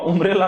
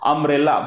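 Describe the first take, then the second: First: The word begins with an 'oo' vowel. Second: The word begins with an 'uh' vowel. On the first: The speaker calls it wrong. "उंब्रेला नाही" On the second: The speaker calls it right. "त्याचा उच्चार कसा आहे? अ"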